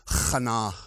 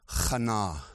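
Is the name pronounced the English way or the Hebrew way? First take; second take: Hebrew; Hebrew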